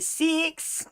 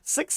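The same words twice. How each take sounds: First: It is said in an Australian accent. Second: It is said in a New Zealand accent. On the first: "you know they're from Australia" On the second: "then you know they're from New Zealand"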